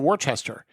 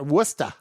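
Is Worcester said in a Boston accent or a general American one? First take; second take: general American; Boston. First: It is said in a general American accent. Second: It is said in a Boston accent. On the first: An outsider says it. The speaker calls it wrong. "Most people would probably say Worcester" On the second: A local says it. The speaker calls it right. "you got to have that Boston accent in there"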